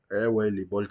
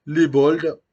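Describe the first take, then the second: First: Said in the usual way. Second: Loud, high burst of nostalgia; loud happy exclamation; excited callout. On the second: Real, not acted. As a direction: shout the name out with delight. Excited callout of old club.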